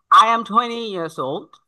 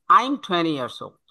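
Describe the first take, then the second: First: Put-on "I am" in full, rising at "old"; two separate words, "I am"; full form. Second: Put-on "I'm" as one syllable, falling at "old"; contracted form. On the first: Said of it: "how to express these sentences". ("I am" পূর্ণ, শেষে সুর উঠবে) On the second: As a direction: shorten to "I'm". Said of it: "that means I'm". (সংক্ষিপ্ত "I'm", শেষে সুর নামবে) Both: Shown as a demonstration.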